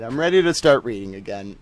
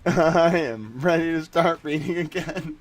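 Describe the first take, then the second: First: Said in the usual way. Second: Slow take with I and am both stressed; "I am ready" spelled out word by word; firm, deliberate re-read with "am" emphasised; stressed restatement. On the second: Shown as a demonstration.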